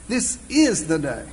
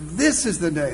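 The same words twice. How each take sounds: First: The word "is" carries the stress. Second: The word "this" carries the stress. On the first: The day is already here now. "Not gonna be. It already is" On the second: Today matters, not yesterday or tomorrow. "emphasize a different word each time through"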